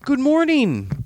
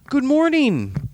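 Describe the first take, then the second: First: The greeting sounds warm and friendly. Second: The greeting sounds warm and friendly.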